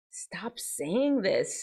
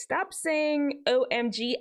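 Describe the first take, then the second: First: Slow hushed whisper. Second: Slow, higher, spelled out. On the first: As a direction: whisper it slowly like a secret. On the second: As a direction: say it up high and drawn out. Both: Shown as a demonstration.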